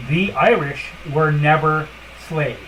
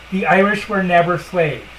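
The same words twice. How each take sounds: First: "The Irish were never slaves" said slowly, each word weighted; slow, deliberate repeat. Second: Blunt and firm, no softening; harsh statement. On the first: Repeating the point to listeners, slow and deliberate. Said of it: "I'll say this once again". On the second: Telling listeners the hard truth, a harsh blunt statement. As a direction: lay it down flatly, no hand-holding. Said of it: "harshly as possible". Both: Shown as a demonstration.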